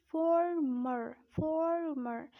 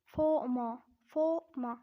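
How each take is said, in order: First: Drawn-out American "former", both Rs strong; American accent. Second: Emphatic British "former", 'faw-muh'; British accent. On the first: Teacher showing learners the American "former", American accent. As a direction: say 'forr-merr' with American Rs. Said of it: "But in American accent, you would say it". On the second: Teacher showing learners the British "former", British accent. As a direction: drop both Rs in "former", British style, louder. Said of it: "in a British accent, it is said as". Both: Shown as a demonstration.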